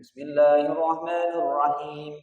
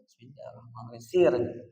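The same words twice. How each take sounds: First: It is said aloud, in a raised voice. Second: It is said quietly, under the breath.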